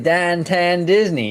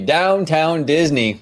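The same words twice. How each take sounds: First: It is said in a Pittsburgh accent. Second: It is said in a plain standard accent. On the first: The speaker calls it right. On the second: The speaker calls it wrong.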